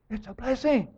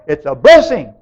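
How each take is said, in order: First: Soft echo. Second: Said in the usual way. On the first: Real, not acted. Preacher reassuring the congregation with a soft repeated echo. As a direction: say It's a blessing again much softer.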